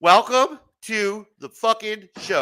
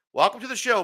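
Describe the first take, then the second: First: Slow, drawn-out host welcome; proper welcome. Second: Said in the usual way. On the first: Acted. Host giving a guest the proper welcome, slow and grand. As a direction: greet the guest like a big announcer. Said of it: "Let's give him the proper welcome". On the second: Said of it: "Let's do this properly".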